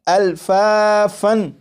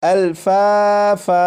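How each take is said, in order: First: The word ends with an n sound. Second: The word ends with a long a vowel. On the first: The reading continues past the word. "ये लफ्ज़ लिखा हुआ है अल्फ़ाफ़न" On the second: The reading stops on this word. "जब वक्फ करेंगे तो वक्फ में अल्फ़ाफ़न नहीं पढ़ेंगे, बल्कि इसे इस तरह पढ़ेंगे"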